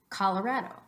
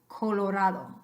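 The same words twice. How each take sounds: First: The first o is ah, the second reduced. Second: Every o is a pure, steady o sound. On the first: "in English, the name of that state, repeat after me" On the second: "In Spanish, every time you have the O, it's got to be a pure O"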